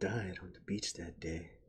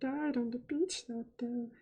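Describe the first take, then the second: First: It is said in the speaker's own natural voice. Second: It is said in a put-on, innocent character voice. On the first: "in your normal voice" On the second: "with the V V voice"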